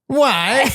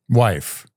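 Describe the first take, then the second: First: It is said in a put-on voice. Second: It is said in a normal voice.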